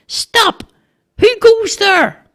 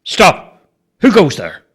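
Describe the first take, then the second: First: Squeaky, very high little challenge; boy's challenge. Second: Firm, forceful sentry's command; authoritative challenge. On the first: Boy challenging a stranger at the barricade, squeaky. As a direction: pipe it out slowly as a small sentry. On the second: Bobo showing the boy how to challenge, authoritative. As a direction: project force behind each word. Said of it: "put some authority in your voice". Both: A narrator's reading.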